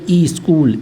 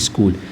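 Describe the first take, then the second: First: An extra i vowel is added before sk. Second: The word starts directly with the sk cluster. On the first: The speaker calls it wrong. "कर दिया ई स्कूल" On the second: The speaker calls it right. "जबकि क्या होता है स्कूल होता है"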